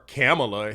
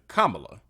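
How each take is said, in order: First: The name starts with a sound like 'camel'. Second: The name does not start like 'camel'. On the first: The speaker calls it wrong. "like she's a camel" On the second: The speaker calls it right. "the correct pronunciation"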